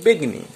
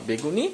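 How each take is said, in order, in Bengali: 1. শব্দটি ছোট রূপে বলা হয়েছে। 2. শব্দটি পুরো রূপে বলা হয়েছে।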